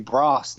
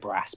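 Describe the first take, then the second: First: It is said in a southern English accent. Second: It is said in a northern English accent. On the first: This is how it is said now. "but I say brass now because I have a southern accent" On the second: This is how it was said when living up north. "I used to have like the uh, the Jon Snow northern accent like that. Uh, so I would used to say brass"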